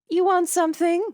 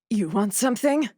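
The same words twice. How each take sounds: First: It is said in a plain, ordinary voice. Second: It is said in a low, husky voice. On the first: The speaker calls it wrong. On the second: The speaker calls it right.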